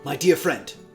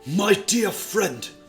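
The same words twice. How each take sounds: First: It is said in the reader's normal voice. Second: It is said in a put-on character voice.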